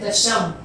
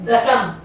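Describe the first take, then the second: First: दशम said with a palatal श, sh sound; correct pronunciation. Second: दसम said with a plain dental स, as the wrong form; wrong spelling said. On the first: Teacher giving students the correct form, sh sound. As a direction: say दशम as dasham, the sh sound clearly. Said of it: "हम बोलते हैं दशम". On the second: Teacher showing students the wrong form, dental s. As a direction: say दसम with a clear s sound, the wrong way. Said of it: "दसम नहीं बोलते". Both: Shown as a demonstration.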